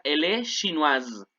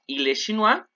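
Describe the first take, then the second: First: "chinoise" ends in a buzzing z sound, "shee-NWAZ"; slow, buzz the final s of "chinoise" like a bee; feminine with buzzing z. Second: "chinois" ending in a silent s, "shee-NWAH"; masculine chinois. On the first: Teacher stressing the z sound for the class. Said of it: "hay una S en medio de dos vocales, suena como Z". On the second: Teacher showing students the masculine form, "chinois" ending open. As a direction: say "chinois" with no final sound. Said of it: "ojo con la pronunciación". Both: Shown as a demonstration.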